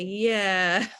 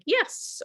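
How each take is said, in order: First: The word is stretched out slowly. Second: The word is short, quick and upbeat. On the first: "sometimes I'll draw it out" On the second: "in a short, upbeat, like yes"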